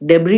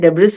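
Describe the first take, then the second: First: The word ends without an s sound. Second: The word ends with an s sound. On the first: The speaker calls it right. "डेब्री होता है" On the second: The speaker calls it wrong. "डेब्रिस नहीं होता"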